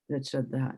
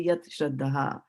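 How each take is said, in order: First: The two words run together fluently. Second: The two words are said separately. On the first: "it will actually automatically become like this" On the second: "pronounce them as two separate words"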